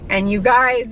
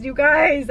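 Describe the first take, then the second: First: Said in the usual way. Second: "you guys" higher and pressed; emphatic repeat. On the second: Real, not acted. Mom insisting to her viewers, "you guys" emphatic. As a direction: say "you guys" again, pleading for attention.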